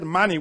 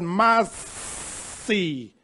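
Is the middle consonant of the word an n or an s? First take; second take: n; s. First: The middle consonant is an n sound. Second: The middle consonant is an s sound. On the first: The speaker calls it wrong. "we don't say money" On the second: The speaker calls it right. "we said massi"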